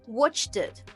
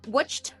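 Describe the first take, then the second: First: The ending adds an extra syllable. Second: The ending adds no extra syllable. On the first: The speaker calls it wrong. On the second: The speaker calls it right.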